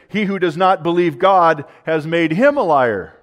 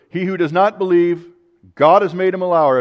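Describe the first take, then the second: First: There is no pause after 'believe'. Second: There is a pause after 'believe'.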